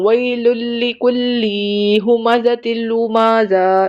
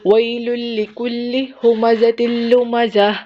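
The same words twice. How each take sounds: First: The vowels are stretched out long. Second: The vowels are kept short throughout. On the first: The speaker calls it wrong. "आपने इसको ऐसे हरगिज नहीं पढ़ना" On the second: The speaker calls it right. "एक वर्ड भी स्ट्रेच नहीं करना"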